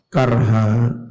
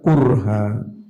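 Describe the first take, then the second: First: The first syllable has an 'a' vowel. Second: The first syllable has a 'u' vowel. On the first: This is the reading of most reciters. "Bifathil kaf, kelawan menfathah kaf" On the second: This is the reading of a few reciters. "Bidhammiha dengan mendomah kaf"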